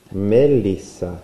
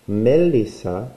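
Both takes have the same delivery.

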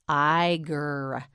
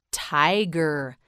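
First: "Tiger" with t apart, then long iger; sounded out. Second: Said in the usual way. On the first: Shown as a demonstration. Teacher models the animal word, "Tiger" sounded out slowly. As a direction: break "Tiger" after the t and draw out the rest. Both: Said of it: "You say it".

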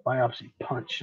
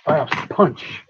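First: "Biopsy punch" softer, muttered to self; quiet repeat. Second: "Biopsy" said loud with a falling finish; emphatic correction. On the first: Streamer repeating the term quietly to himself, softer. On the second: Streamer firmly correcting himself to viewers, loud stress on "Biopsy". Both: Shown as a demonstration. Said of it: "That's what they are".

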